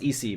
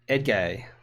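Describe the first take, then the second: First: The middle consonant is an 's' sound. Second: The middle consonant is a 'j' sound. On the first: The speaker calls it wrong. "I thought it was pronounced E C" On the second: The speaker calls it right. "Edgay is how you pronounce E C in Turkish"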